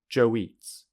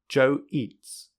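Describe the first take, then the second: First: A w sound joins the two words. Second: The two words are said separately.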